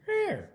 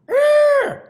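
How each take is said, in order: First: It sounds happy and content. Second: It sounds excited and energetic.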